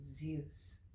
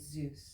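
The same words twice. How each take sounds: First: The vowel is a gliding 'yoo' sound. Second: The vowel is a plain 'oo', like juice. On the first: This is how the speaker says it. "I'm getting the U in there" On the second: This is how the other person says it. "You're saying Zeus"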